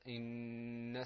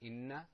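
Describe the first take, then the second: First: The final n sound is held long. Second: The final n sound is cut short. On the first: The speaker calls it right. "Ponder a little bit on that noon" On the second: The speaker calls it wrong. "Instead of saying إن"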